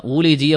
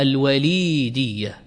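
First: وليدية as wulaydiya, u then ay; وليدية as wu-lay-di-ya; rejected variant. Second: الوليدية as al-walīdiyya, long drawn ī; slow الوليدية, wa-līī-diy-ya; preferred variant. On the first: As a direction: say وليدية with u on the waw and a diphthong ay. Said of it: "يقولون ليس هناك وليدية". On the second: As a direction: say الوليدية slowly, stretching the lī. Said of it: "وإنما المصدر فيه". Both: Shown as a demonstration.

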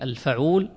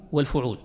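First: الفعول as al-faʕūl, a after f; الفعول opened to fa-ʕūl; fatha form. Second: والفعول as wal-fuʕūl, u after f; والفعول rounded to fu-ʕūl; damma form. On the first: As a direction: say الفعول with an open a on the fa. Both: Shown as a demonstration. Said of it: "بالضم، يعني يجوز فيه".

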